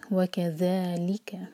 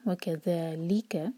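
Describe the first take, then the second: First: Slow recitation of वकज़ालिका with the ज़ा held two counts; Quran recitation. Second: वकज़ालिका slowly with ली pressed; stress on ली. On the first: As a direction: draw out वकज़ालिका, stressing ली after the stretch. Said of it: "word है ज़ालिका". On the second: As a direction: recite वकज़ालिका, hitting ली. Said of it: "ली पर जोर". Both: Shown as a demonstration.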